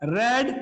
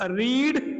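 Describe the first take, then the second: First: The vowel is a short 'e' sound. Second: The vowel is a long 'ee' sound. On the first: It is the past tense form. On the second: It is the present tense form.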